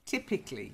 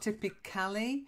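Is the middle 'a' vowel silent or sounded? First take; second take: silent; sounded. First: The middle vowel is dropped entirely. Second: The middle vowel is clearly pronounced. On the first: The speaker calls it right. "it's a silent A" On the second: The speaker calls it wrong. "So it's not typically"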